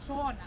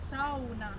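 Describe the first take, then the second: First: It is said with an English pronunciation. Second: It is said with a Finnish pronunciation. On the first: The speaker calls it wrong. "English speakers tend to pronounce it as sauna, right? Not correct" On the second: The speaker calls it right. "We in Finland, we pronounce all of the letters very well ... we say sauna"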